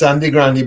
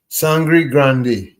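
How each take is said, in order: First: The first word is said casually, like 'Sandy'. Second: The first word is said carefully, as spelled. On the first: This is how locals say it. "In local parlance" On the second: This is the official form. "So what is the correct pronunciation?"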